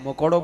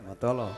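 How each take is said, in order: First: The word is said with clear adult sounds. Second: The word is said with a childish lisp. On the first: "મકોડો બોલતા ન આવડતો એમ માનો તમે?" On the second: "એસી વર્ષના બાપને તોતડો બનાવી દે"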